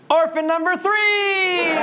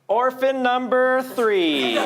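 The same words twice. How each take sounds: First: It is said proudly, with pride in the voice. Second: It is said plainly, without particular pride.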